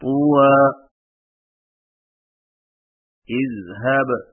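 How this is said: There is a stop after the first word. "وقفاً"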